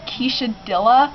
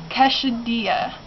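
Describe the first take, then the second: First: Quesadilla mispronounced as "keesha-DILL-uh"; botched pronunciation. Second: Quesadilla said slowly as "kesha-DEE-uh"; careful pronunciation. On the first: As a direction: say quesadilla with a hard English l, "keesha-dilla", rising at the end. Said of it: "had so much trouble. I said". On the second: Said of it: "I'm gonna try to say this right". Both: Shown as a demonstration.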